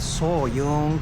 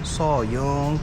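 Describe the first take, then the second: First: The second syllable starts with a 'y' sound. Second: The same.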